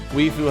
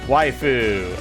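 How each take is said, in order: First: The first syllable sounds like 'wee'. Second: The first syllable sounds like 'why'. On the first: The speaker calls it wrong. "Have I been pronouncing it wrong the whole fucking time?" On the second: The speaker calls it right.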